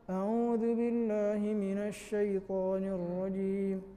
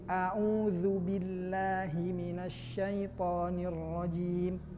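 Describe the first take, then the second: First: The vowels are slurred and not fully shaped. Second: The vowels are clearly and fully shaped. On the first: The speaker calls it wrong. "itu tidak sempurna pengucapannya" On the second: The speaker calls it right. "Dhammah itu harus memonyongkan bibir"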